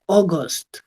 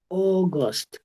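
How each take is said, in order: First: The first vowel is a single 'aw' sound. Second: The first vowel is a single 'aw' sound.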